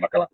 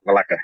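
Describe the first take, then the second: First: "Bacala" with the B first and the L second, ba-CA-la; wrong name. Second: "Balaca" with the L first and the C second, ba-LA-ca; corrected name. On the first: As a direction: say "Bacala", the wrong version with B then L. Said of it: "I was saying Bacala". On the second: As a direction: say "Balaca", the corrected version with L then C. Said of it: "that's what it is, Balaca". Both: Shown as a demonstration.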